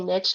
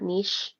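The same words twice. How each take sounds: First: It is said the plain English way. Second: It is said the fancy French way. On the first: The speaker calls it right. "I like that you say niche" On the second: The speaker calls it wrong. "not niche ... let's not get fancy"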